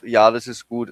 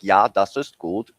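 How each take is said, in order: First: It is said in a natural German accent. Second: It is said in an exaggerated, funny German accent. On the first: The speaker calls it right. "Instead of" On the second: The speaker calls it wrong. "it sounds like"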